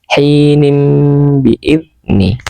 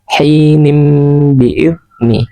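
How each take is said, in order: Both takes have the same delivery.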